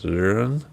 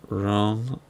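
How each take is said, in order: First: The vowel is an 'er' sound like in sir. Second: The vowel is a plain round 'oh' sound. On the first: "the northern people have like an er, like year or like sir" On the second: "I'm pretty sure it's Rhone"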